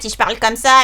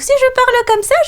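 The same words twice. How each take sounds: First: It is a raspy, witch-like voice. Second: It is a very high, little-girl voice.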